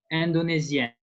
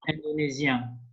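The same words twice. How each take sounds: First: "Indonesian" as French indonésienne, N clearly sounded at the end; French feminine, pronounced N. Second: "Indonesian" as French indonésien, ending on a nasal vowel; French masculine, no N. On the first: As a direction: finish "Indonesian" on a firm French N. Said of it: "the N sound is more". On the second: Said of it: "In masculine is". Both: Shown as a demonstration.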